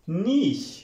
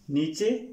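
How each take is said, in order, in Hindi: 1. यह 'sh' की आवाज़ से खत्म होता है। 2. यह 'ch' की आवाज़ और एक स्वर से खत्म होता है। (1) "इसकी करेक्ट प्रोनाउंसिएशन है स्टूडेंट्स नीश" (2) "नीचे नहीं"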